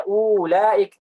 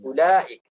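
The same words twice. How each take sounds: First: "ulaik" with a drawn-out first u; wrongly long u. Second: "ulaik" with a short first u; correct short u. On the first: Teacher shows how not to read it, "ulaik" starting with long uu. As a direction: hold the opening u of "ulaik". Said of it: "Bukan dibaca". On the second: Teacher gives the proper reading, "ulaik" starting with short u. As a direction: keep the opening u of "ulaik" brief. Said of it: "Tapi dibaca". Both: Shown as a demonstration.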